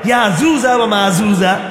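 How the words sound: The jim sound is pronounced as a soft j. "বাঙালি জিমকে বলা ঝা"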